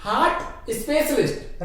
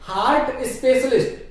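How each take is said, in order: First: हार्ट with a silent r; correct pronunciation. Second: हार्ट with the r sounded; wrong pronunciation. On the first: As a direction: say हार्ट as "haat" before specialist. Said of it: "रे की sound आएगी ही नहीं". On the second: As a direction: say हार्ट as "haart" before specialist. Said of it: "हार्ट भी नहीं कहेंगे". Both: Shown as a demonstration.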